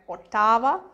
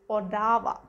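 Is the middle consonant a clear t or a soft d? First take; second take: clear t; soft d. First: The middle consonant is a clear t sound. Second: The middle consonant sounds like a soft d. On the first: This is how it is read. "when you read it, it's like Ottawa" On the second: This is how it is actually spoken. "but when you pronounce it, is Odawa"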